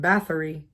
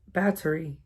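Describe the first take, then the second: First: The middle consonant is a th sound. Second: The middle consonant is a plain t sound. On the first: The speaker calls it wrong. "I'm saying Bathory" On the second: The speaker calls it right. "B A T O R I"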